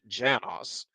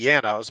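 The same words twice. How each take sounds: First: The name is pronounced the English way. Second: The name is pronounced the Hungarian way. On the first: "in English you might actually pronounce it Janos" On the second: "in Hungarian it would be Janos"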